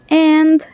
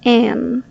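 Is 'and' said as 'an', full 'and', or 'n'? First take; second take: full and; an. First: The word is said fully with a clear d. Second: The word is reduced, dropping the final d. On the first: "pronouncing and clearly like that" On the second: "native speakers reduce it to an"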